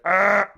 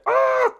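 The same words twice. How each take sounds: First: A gravelly voice at a lower pitch. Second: A gravelly voice at a higher pitch.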